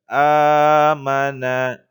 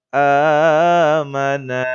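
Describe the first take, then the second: No difference in how they are said.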